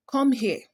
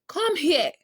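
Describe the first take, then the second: First: Said in the usual way. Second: Sharp, much higher command. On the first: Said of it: "That's a statement". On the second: Shown as a demonstration. Teacher showing students a command with emotion, raised pitch. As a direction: order them to come over. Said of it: "that's a command".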